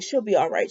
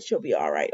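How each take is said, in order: First: Said in the usual way. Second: Much lower and softer, to himself; a hushed, sinking self-reassurance; quieter repeat. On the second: Retold or imitated. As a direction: let the repeat sink low under the breath.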